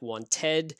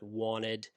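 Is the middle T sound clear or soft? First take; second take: clear; soft. First: The middle T is pronounced clearly. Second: The middle T is pronounced very softly. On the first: "It looks like wanted, which is more a British uh, pronunciation" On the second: "that T sort of becomes very soft in the middle"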